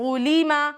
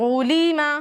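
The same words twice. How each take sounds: The two takes are said the same way.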